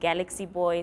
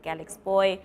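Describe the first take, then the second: First: The first word has three syllables. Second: The first word has two syllables. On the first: "Some people say Galaxy Boy" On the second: "some people say Galax Boy"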